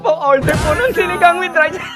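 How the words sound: It is said in a laughing, tickled voice.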